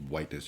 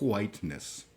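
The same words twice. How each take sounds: First: The word starts with a plain w sound. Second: The word starts with a breathy hw sound. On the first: The speaker calls it wrong. "You can't just say whiteness" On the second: The speaker calls it right. "you have to pronounce the H"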